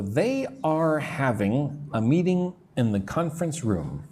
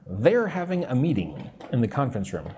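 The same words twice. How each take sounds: First: Said in the usual way. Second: "they're" run together as one syllable; contracted they're. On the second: Shown as a demonstration. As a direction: say "they're" as one word, not two. Teacher repeats with contraction.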